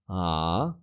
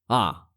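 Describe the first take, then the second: First: The pitch dips down and then rises. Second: The pitch falls sharply from high to low. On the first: "falling, then rising"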